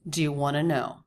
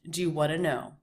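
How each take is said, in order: First: Want to is reduced to wanna. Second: The same.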